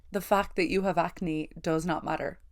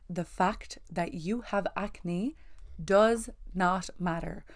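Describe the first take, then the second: First: Said in the usual way. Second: The fact that you have acne does not matter, slow with each word weighted; slow emphatic. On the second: Shown as a demonstration. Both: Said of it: "I just wanna say that again".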